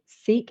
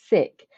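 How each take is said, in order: First: The vowel is long, rhyming with 'seek'. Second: The vowel is short, rhyming with 'sick'. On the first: This is how an outsider has always said it. "I've always called it seek" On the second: This is how members of the faith say it. "you've just pronounced it sick"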